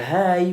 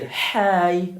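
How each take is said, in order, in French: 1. Le h, c'est un souffle léger et normal. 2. Le h, c'est un souffle fort et poussé.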